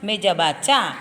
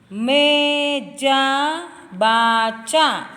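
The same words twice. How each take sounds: First: It is read smoothly joined without breaks. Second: It is read in separate pieces with breaks.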